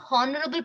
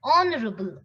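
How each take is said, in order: First: "honorable" with an h at the start; H sounded. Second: "honorable" as on-orable; silent H. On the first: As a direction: say "honorable" wrongly as hon-orable. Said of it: "It is not honorable president". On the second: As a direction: say "honorable" from the vowel. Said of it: "It is". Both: Shown as a demonstration.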